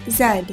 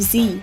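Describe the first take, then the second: First: The letter is said as zed. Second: The letter is said as zee. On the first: This is the British way of saying it. "In Britain, the last letter is pronounced Z, Z E D" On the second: This is the American way of saying it. "rather than the use of Z, Z E E in the U S"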